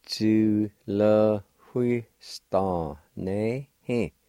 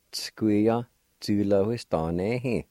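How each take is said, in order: First: Tu le hui sta ne he, each syllable slow. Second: Said in the usual way. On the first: Shown as a demonstration. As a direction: spell it out slowly. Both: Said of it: "And together".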